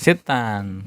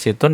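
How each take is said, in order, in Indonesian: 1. Kata ini berakhir dengan bunyi 'an'. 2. Kata ini berakhir dengan bunyi 'un'. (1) "harusnya mansub" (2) "Situn itu marfu"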